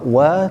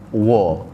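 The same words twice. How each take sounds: First: The 'wa' is light, with a spread vowel. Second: The 'wa' is heavy, with a rounded 'o' vowel. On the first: The speaker calls it right. "waw ialah huruf yang dibaca nipis" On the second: The speaker calls it wrong. "tak boleh baca dengan wa"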